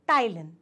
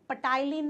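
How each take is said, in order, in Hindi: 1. शब्द की शुरुआत T की आवाज़ से होती है, P नहीं। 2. शब्द की शुरुआत में एक सुनाई देने वाली P की आवाज़ है। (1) "पी साइलेंट" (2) "पटाइलिन नहीं"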